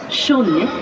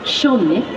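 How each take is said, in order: Both takes have the same delivery.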